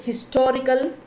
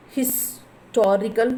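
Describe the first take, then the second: First: Said in the usual way. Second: Historical slowly broken after "his"; split into parts. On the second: Shown as a demonstration. Teacher showing students the syllables, historical split apart. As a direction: say historical slowly, a pause between "his" and "torical". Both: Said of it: "two syllables".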